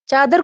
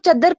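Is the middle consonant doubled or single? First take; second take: single; doubled. First: The vowel is long, with a single middle consonant. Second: The vowel is short, with a doubled middle consonant.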